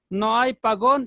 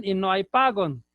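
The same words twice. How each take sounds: First: PAGÓN con el golpe en la última sílaba, GÓN; acento en la última. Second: PAGÓN dicho PÁgon, golpe en la primera sílaba; acento en la primera. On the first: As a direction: marca la segunda sílaba de PAGÓN. (pagón, palabra aguda) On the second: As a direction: carga la voz en PA de PAGÓN y deja caer el final. (págon, palabra llana) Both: Shown as a demonstration. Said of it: "no vamos a tener pares mínimos".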